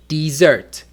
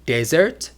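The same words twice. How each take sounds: First: "dessert" stressed on the last syllable; di-ZERT, punch the end of "dessert"; stress on second syllable. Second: "Desert" stressed on the first syllable; DEZ-ert, punch the front of "Desert". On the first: Teacher contrasting two words for learners, "dessert" stressed at the end. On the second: Teacher contrasting two words for learners, "Desert" stressed at the start. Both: Shown as a demonstration. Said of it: "listen to the intonation".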